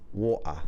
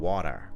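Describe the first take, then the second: First: It is said in an English accent. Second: It is said in an American accent. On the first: "People comment on my English accent like water" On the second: "That's my real bad American accent for water"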